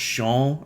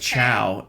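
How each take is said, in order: First: It is said with a different, Portuguese-like vowel. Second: It is said like the English word chow. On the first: The speaker calls it right. "but it's pronounced Chão" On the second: The speaker calls it wrong. "It looks like"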